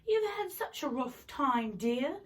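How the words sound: It is said in a British accent. The speaker calls it right. "this is the British accent lady"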